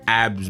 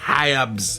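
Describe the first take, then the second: First: The word starts with a vowel, no h. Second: The word starts with a clear h sound. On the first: The speaker calls it wrong. "it's not abs" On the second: The speaker calls it right. "You need to pronounce the H"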